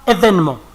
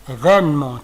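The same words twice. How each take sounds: First: The first E vowel is said short. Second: The first E vowel is said long. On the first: The speaker calls it wrong. "Tu ne dis pas événement" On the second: The speaker calls it right. "Tu allonges le E"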